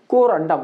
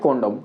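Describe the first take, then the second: First: An 'r' sound is heard in the middle. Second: No 'r' sound is heard in the middle. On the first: The speaker calls it right. "इसको अच्छे से उच्चारण करना" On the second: The speaker calls it wrong. "कोंडम मत पढ़ना"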